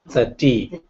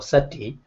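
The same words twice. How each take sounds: First: It is said in the Burmese pronunciation. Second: It is said in the international pronunciation. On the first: Only Burmese people say it this way. "In Burmese pronunciation a little bit different" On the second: This is how most people say it. "in the international pronunciation we call sati"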